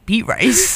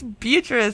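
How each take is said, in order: First: The name sounds like two words, beet and rice. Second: The name is said as one word, Beatrice. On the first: The speaker calls it wrong. "I'd never seen the name Beatrice spelled out before" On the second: The speaker calls it right. "then I realized it was Beatrice"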